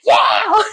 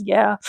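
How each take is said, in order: First: High-pitched mock holler; imitated yell. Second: Said in the usual way. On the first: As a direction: yell it out like a goofy singer. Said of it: "the part where he yells". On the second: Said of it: "it's funny when he yells".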